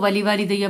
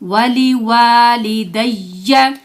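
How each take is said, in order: First: The 'wa' after 'li' is kept short. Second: The 'wa' after 'li' is drawn out long. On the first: The speaker calls it wrong. "इसमें हम क्या गलती करते हैं" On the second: The speaker calls it right. "वाव है उसको लंबा करना है"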